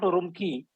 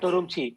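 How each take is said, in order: First: The final syllable begins with a 'k' sound. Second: The final syllable begins with a 'ch' sound. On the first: The speaker calls it wrong. "is not" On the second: The speaker calls it right. "but; Q I is pronounced as Chi"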